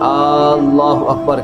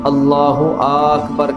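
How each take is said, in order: First: The opening vowel of Allah is drawn out. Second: The opening vowel of Akbar is drawn out. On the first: "यानी अलिफ को खींच देते हैं" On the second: "यानी हमज़ा को खींच देते हैं"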